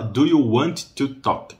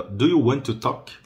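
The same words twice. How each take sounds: First: Want to said slowly with two separate Ts; both Ts separated. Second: Want to run together with one T; single linked T. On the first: Teacher shows what not to say, both Ts separated. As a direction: break WANT, then TO, releasing each T. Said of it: "eu não vou falar". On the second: Teacher shows do you want to talk, single linked T. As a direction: link WANT TO as "wan-to". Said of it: "só falo um T ali". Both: Shown as a demonstration.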